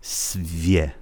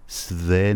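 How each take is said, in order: First: "سویه" as svye, a tiny y before the e; correct soft y-glide. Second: "سوه" drawn out as sve, no y-glide; wrong plain-e pronunciation. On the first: Teacher modelling the sound for learners, softened "سویه". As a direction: say "سویه" softly with the v gliding into ye. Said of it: "یه کوچولویه در واقع". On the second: Teacher ruling out a form for learners, mispronounced "سوه". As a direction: say "سوه" slowly with an unsoftened v. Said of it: "سوه نه". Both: Shown as a demonstration.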